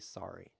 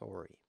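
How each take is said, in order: First: It is said in a non-Canadian accent. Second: It is said in a Canadian accent. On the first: The speaker calls it wrong. "In Canada, they don't say sorry" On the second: The speaker calls it right. "They say sorry. And it's actually more pleasant that way"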